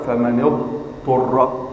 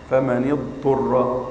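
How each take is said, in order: First: فمن اضطر with a long hold on the ta; wrong long stop. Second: فمن اضطر said slowly and smoothly, with no stop on the ta; correct flowing. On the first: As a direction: linger too long on the ta of اضطر. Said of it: "لا تقل". (فمن اضطر بسكتة طويلة خاطئة) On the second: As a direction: run فمن اضطر through without a pause. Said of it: "لا تسكت سكتة طويلة". (فمن اضطر بلا سكتة) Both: Shown as a demonstration.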